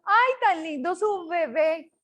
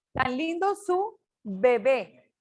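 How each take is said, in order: First: Bebé with V-like Bs, teeth on lip; wrong labiodental B. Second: Slow, bebé set apart with lip-made Bs; correct bilabial B. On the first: Teacher showing what we don't say, mispronunciation demo. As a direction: say bebé as if spelled veve. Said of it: "Nosotros no decimos". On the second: Teacher correcting the example sentence, slow pronunciation demo. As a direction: slowly close both lips on each B in bebé. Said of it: "B labial". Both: Shown as a demonstration.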